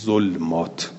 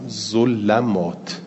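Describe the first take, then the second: First: The L has no vowel after it. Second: The L is followed by an a vowel. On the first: This is a non-canonical reading. "به سکون لام" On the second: This is another non-canonical reading. "به فتح لام"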